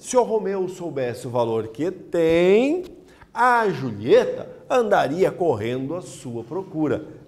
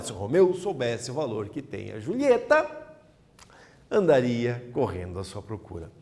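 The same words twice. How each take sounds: First: The pause falls right after the word tem. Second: The pause falls right after the word Julieta. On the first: The man is the one who has the value. "Aqui ela está depois do tem, logo após o tem" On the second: The woman is the one who has the value. "Passamos para após a Julieta"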